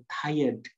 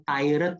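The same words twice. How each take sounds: First: "tired." said as /tajəd/, with no r; right pronunciation. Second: "tired" read letter by letter as /tirəd/; wrong "tired" with a short i and a clear r; wrong pronunciation. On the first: Teacher giving the correct reading of "tired.". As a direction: correct "tired." as tie-uhd. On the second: Teacher showing the wrong reading of "tired". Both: Shown as a demonstration. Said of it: "Ini bacanya bukan tired ya".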